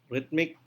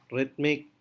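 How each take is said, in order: Both takes have the same delivery.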